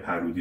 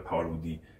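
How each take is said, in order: First: It is said without the French pronunciation. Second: It is said with the French pronunciation.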